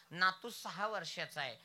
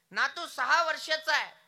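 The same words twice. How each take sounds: First: Said in the usual way. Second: सहा punched, whole line higher and louder; सहा loud and high, falling at the end; stress on सहा. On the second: Shown as a demonstration. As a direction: repeat it hitting सहा hard.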